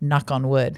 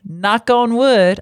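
First: It is said in a neutral American accent. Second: It is said in a Southern American accent. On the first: "Let me do it in not a Southern voice" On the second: "I don't know why I'm giving a Southern voice to when I say that"

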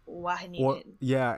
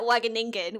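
First: The first G is a throaty H sound. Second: The first G is a hard G sound. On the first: The speaker calls it right. "the Dutch pronunciation of the G is a H sound" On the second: The speaker calls it wrong. "I always said Wageningen, which is completely wrong"

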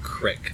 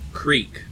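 First: The vowel is short, rhyming with stick. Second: The vowel is long, rhyming with seek. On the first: The speaker calls it wrong. "I do not pronounce that word crick" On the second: The speaker calls it right. "I pronounce it creek, because that's how it's spelled"

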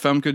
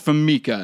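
First: The name is said with two syllables. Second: The name is said with three syllables. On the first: The speaker calls it right. "There's no other E in there for Mika" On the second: The speaker calls it wrong. "So you said Famica"

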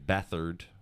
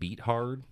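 First: The name does not sound like 'beat hard'. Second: The name sounds like the words 'beat hard'. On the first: The speaker calls it right. "That's how you pronounce his name" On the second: The speaker calls it wrong. "Josh was pronouncing it beat hard earlier"

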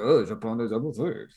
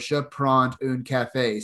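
First: It is said with a strong French accent. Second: It is said plainly, without a French accent.

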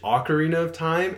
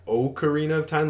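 First: The first vowel sounds like ah. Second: The first vowel sounds like oh. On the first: "I've heard it pronounced like ah, like A-H" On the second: "like O-H"

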